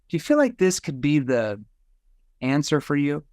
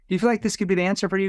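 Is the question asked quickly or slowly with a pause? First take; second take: slowly; quickly. First: It is said slowly with a pause inside. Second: It is said quickly without any pause. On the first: The listener is led to think more deeply about the question. The speaker calls it right. "I want to have like a verbal pause here" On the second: The listener gives a knee-jerk reaction without thinking. The speaker calls it wrong. "If I asked it fast"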